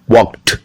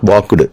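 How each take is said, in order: First: The ending is a t sound. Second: The ending is not a t sound. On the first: The speaker calls it right. "T sound" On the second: The speaker calls it wrong. "Not walked"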